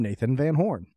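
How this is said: It has a polished, show-intro announcer inflection. It is the way the show's intro is delivered. "with the typical inflection"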